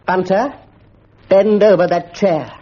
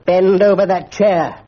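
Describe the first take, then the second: First: Slow, heavy command; stern order. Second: Slow, heavy, booming order; thundering command. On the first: Mister Quelch orders Bunter over the chair sternly. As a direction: lay down the law. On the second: Mister Quelch thunders his order at Bunter. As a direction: bring the house down on him. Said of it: "thundered Mister Quelch". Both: A narrator's reading.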